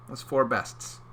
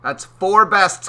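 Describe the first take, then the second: First: Said in the usual way. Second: Four bests, higher and louder; loud playful emphasis; emphatic repeat. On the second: Shown as a demonstration. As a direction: punch it out the second time.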